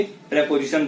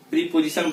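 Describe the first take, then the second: First: प्रीपोजिशन with short pre, pre-po-zi-shun; the right way, प्रीपोजिशन starting with pre not pree; प्रीपोजिशन said as in English; correct pronunciation. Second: प्रीपोजिशन with a long pree at the start; the common mistake, प्रीपोजिशन as pree-po-zi-shun; प्रीपोजिशन with pree and j, as many say it; wrong pronunciation. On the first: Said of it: "लेकिन वो ना होके ... बोलते हैं". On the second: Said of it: "बहुत सारे लोग इसको ... बोलते हैं". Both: Shown as a demonstration.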